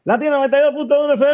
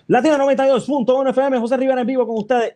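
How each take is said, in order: First: High, fast station ID call; radio announcer voice. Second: High, fast announcer call; energetic radio intro. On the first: Radio host reenacting his on-air intro, announcer voice. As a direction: hype it up like a DJ going on air. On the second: Host reenacting his energetic on-air opening, announcer voice. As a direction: blast it out like going live. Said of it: "tú entras bien energético". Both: Retold or imitated.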